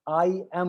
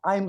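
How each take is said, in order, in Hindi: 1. दोनों शब्द पूरे और अलग-अलग बोले जाते हैं। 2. शब्द आपस में जुड़कर छोटे रूप में बोले जाते हैं। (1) "आई एम नहीं" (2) "आई एम आई एम बोलते हैं"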